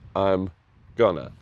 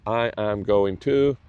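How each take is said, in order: First: The words are contracted and run together. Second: Every word is said fully and separately. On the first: "show this contraction" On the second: "you might say, I am going to"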